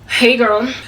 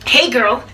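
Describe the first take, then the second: First: The greeting sounds cold and unfriendly. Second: The greeting sounds warm and friendly.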